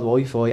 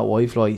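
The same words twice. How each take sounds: First: Said in the usual way. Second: "Wi-Fi" said as "Why-Floy"; "Wi-Fi" with "fly" as its second half; mispronounced Wi-Fi. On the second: Retold or imitated. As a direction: put an L after the second F of "Wi-Fi". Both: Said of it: "it's called Wi-Fi and not Wi-Fi".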